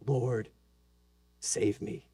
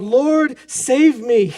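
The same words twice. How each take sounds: First: Breathy whispered prayer, much softer; whispered plea. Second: Loud, high desperate cry; cry for help. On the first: Pretend. Believer sinking, whispering a plea to the Lord, hushed. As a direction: barely breathe the words. When we say. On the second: Acted. Peter sinking in the storm, crying out to Jesus, loud desperate cry. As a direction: shout it like you're sinking. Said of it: "he cries out".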